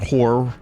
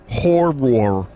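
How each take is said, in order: First: The word is said loosely, with sounds slurred. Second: Every sound of the word is said distinctly. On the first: The speaker calls it wrong. "It's not horror" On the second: The speaker calls it right. "You gotta say every letter of the word"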